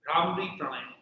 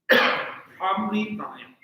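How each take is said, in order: First: Said in the usual way. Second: "Bhramri Pranayam" said slowly and louder, each syllable spelled out; slow careful pronunciation. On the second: Shown as a demonstration.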